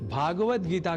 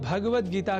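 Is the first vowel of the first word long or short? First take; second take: long; short. First: The first vowel is long. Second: The first vowel is short. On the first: The speaker calls it wrong. "भागवत गीता का प्रयोग हम में से कई कर जाया करते हैं" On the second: The speaker calls it right. "भगवत Gita के स्थान पर"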